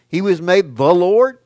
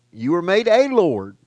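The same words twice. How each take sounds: First: THE leaned on, voice raised towards Lord; stress on THE. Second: A said as a full "ay", falling after it; stress on A. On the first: Preacher contrasting Jesus with believers, stress on THE. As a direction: make THE the singular title, loud and high. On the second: Preacher telling believers their title, stress on A. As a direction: make A the lesser title, raised voice. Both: Shown as a demonstration. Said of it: "he was made the king".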